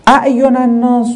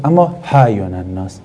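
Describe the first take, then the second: First: اعین الناس with a sharp, clear glottal stop on the hamza; hard hamza version. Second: اعین الناس said lower with a softened, breathy start; easier softened version. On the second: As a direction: relax the opening of اعین الناس into an easy h-like onset. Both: Shown as a demonstration. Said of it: "خب تلفظش سخته".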